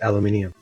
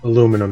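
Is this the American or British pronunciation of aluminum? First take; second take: British; American. First: It is said with five syllables, ending -nium. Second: It is said with four syllables, ending -num.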